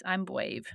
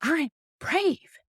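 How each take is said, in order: First: Soft imitation of an unsure toddler; lightly voiced timid little boy; little three-year-old voice. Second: High-pitched mock yell, drawn out; big, high, proud kid's yell; retold yell. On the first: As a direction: say it small and quiet, no confidence. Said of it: "in his little three-year-old voice". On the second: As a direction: imitate a child yelling it with conviction. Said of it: "eventually I got him to yell".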